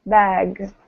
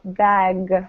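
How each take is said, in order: First: The final g is voiced strongly. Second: The final g is voiced strongly.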